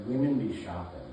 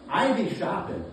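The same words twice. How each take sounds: First: Said in the usual way. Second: "I" punched high and loud; emphatic, raised claim landing on "I"; stress on I. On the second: Acted. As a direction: throw the voice up and hit "I" hard. Turns the stereotype on himself.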